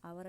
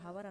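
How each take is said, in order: First: The word starts with a vowel sound. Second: The word starts with an h sound. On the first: The speaker calls it right. "అవర్ అనే పలుకుతాము" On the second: The speaker calls it wrong. "దాన్ని హవర్ అనము"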